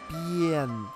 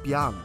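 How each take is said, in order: First: The vowel sounds like the 'e' in 'yen'. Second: The vowel sounds like the 'a' in 'father'. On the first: The speaker calls it right. "it's B-N. So it's a B plus Yen" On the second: The speaker calls it wrong. "It's not Bian"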